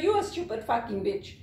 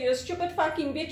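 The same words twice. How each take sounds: First: "You're" stressed, falling at the end; retort stressing You're. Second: Quick mock insult, tossed out; retold customer insult. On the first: Retold or imitated. Zimbabwean handing the insult back, firm falling retort on "You're". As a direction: throw it back, weight on "You're". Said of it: "we'll say". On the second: Customer insulting call-center worker, quick retold jab. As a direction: imitate a rude customer, rattled off fast. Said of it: "You say".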